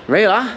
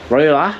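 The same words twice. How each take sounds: First: Ruler again the English way, higher and rising. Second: Ruler copied with an American r, rising; imitating American accent. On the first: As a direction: back to his own ruler, no r. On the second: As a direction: try ruler like an American would. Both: Shown as a demonstration. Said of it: "How do you say it?".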